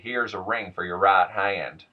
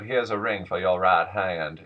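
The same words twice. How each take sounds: First: The R sounds are pronounced hard. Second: The R sounds after vowels are dropped. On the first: "my attempt to illustrate a hard R" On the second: "instead of"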